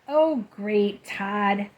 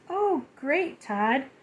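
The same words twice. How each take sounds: First: It is said in a sighing, impatient tone. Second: It is said in a warm, loving tone.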